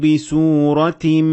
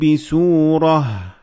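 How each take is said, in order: First: The word ends with a t sound. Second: The word ends with an h sound. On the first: The reader continues without pausing. "when you keep on reading, it becomes a ta" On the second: The reader pauses at this word. "When you stop at ta marbuta, you pronounce it as ha"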